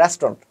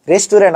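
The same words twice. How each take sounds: First: "রেস্টুরেন্ট" squeezed to two syllables, RES-tron; "রেস্টুরেন্ট" lower, as res-tron; correct pronunciation. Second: "রেস্টুরেন্ট" in three syllables, res-tu-RENT; "রেস্টুরেন্ট" the common Bangla way, ending in "rent"; everyday mispronunciation. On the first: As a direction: say "রেস্টুরেন্ট" as "restron", dropping the middle vowel. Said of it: "রেস্টুরেন্ট না". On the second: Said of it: "আমরা যে বলি রেস্টুরেন্ট". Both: Shown as a demonstration.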